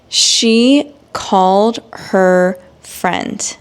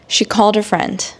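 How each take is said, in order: First: It is spoken slowly and carefully. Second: It is spoken at a normal pace. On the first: "read these examples in slow English" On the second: "then I will read it in normal speed"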